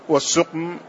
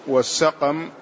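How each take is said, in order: First: السقم with short u after س and vowelless ق; damma on the seen. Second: السقم with short a after the س; open-vowel variant. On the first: Student reading out a word's variant forms, u-vowel السقم. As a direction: say السقم as "as-suqm", one syllable after the article. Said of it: "بضم السين وإسكان القاف". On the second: Student reading out a word's variant forms, open-vowel السقم. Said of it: "وفتحهما لغتان". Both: Shown as a demonstration.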